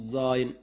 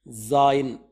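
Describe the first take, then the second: First: Said in the usual way. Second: జాయిన్ said firmly as "zaa-yin"; letter name zayin. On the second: Shown as a demonstration. Teacher introduces the seventh letter to learners. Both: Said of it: "జాయిన్ అంటే".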